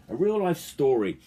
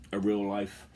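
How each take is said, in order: First: Real punched high and loud; stress on real. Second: Said in the usual way. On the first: Shown as a demonstration. Telling about a mate, he leans hard on real. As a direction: hit the word real hard in a real life story.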